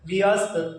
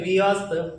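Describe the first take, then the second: First: It is said slowly, split into two parts. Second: It is said slowly, split into two parts.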